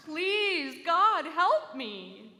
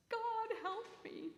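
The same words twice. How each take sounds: First: Loud, high, drawn-out wail; wailing louder. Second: High, slow, hushed cry to heaven; pleading upward, voice thin with fear; desperate plea. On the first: Trembling man wails louder to God, loud and slow. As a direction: stretch every word into a loud desperate wail. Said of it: "he wailed again, louder". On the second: Stranded man begging God from a cliff, high and hushed. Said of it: "he cried out to the heavens". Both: A narrator's reading.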